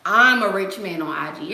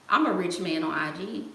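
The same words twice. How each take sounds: First: Loud, long "I'm" at the start; stress on I'm. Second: Said in the usual way. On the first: Real, not acted. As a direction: hit "I'm" hard and stretch it, joking boast. Repeats the joke louder, emphatically.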